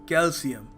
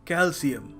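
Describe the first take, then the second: Both takes have the same delivery.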